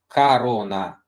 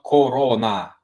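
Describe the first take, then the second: First: The first vowel sounds like an A. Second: The first vowel sounds like a full O. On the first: The speaker calls it right. "It's Corona" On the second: The speaker calls it wrong. "not Corona, like it's literally spelled"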